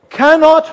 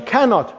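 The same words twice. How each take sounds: First: "cannot" hit higher, a firm strong denial; stress on cannot. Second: Said in the usual way. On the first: Shown as a demonstration. Preacher stresses Jesus' word "cannot" to the congregation. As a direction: lean hard on "cannot". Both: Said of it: "That expression "cannot".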